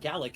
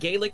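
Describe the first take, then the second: First: The word is given its Scottish pronunciation. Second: The word is given its Irish pronunciation. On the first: The speaker is referring to the Scottish language. "It's pronounced Gallic if you're Scottish" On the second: The speaker is referring to the Irish language. "It's it's pronounced Gaelic if you're Irish"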